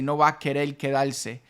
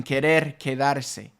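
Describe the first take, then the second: First: "querer quedarse" as "querel quedalse", final R's as L; R turned to L. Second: "querer quedarse" with the R's clearly tapped, "quedarse" in full; rolled R's. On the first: Teacher showing the faster Caribbean L. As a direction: swap the R's for L's, fast and loose. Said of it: "It's much faster to say". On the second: Teacher contrasting the proper R sound. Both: Shown as a demonstration.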